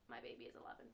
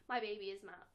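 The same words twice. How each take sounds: First: Unvoiced fond whisper. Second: Said in the usual way. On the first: Real, not acted. Fan whispering her favourite Doctor to viewers. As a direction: breathe it like a secret.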